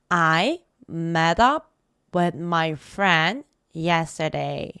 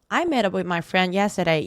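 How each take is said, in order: First: It is said slowly. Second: It is said fast.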